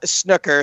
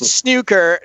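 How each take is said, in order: First: Snooker is said with an American pronunciation. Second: Snooker is said with a British pronunciation. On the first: The speaker calls it wrong. "not snooker" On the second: The speaker calls it right. "Who say it's snooker"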